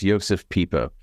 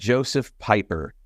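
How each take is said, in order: First: The name is said with German sounds. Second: The name is said with American English sounds. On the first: The speaker calls it right. "I believe, if I'm not mistaken, that his name is pronounced" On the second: The speaker calls it wrong. "if you pronounce it like an American, it would look like"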